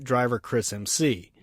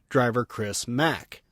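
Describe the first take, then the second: First: The last name is spelled out as two letters. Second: The last name is said as one syllable. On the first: The speaker calls it wrong. "His name is not Driver Chris M C" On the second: The speaker calls it right. "It's pronounced Driver Chris Mack"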